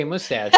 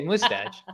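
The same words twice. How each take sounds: First: Said in the usual way. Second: Mustache with a long Minnesota O, pitched up; Minnesota accent. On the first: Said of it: "I can't say mustache regular". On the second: Shown as a demonstration. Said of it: "I can't say mustache regular. I say mustache".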